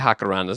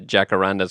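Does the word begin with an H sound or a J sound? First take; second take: H sound; J sound. First: The word begins with an H sound. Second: The word begins with an English J sound.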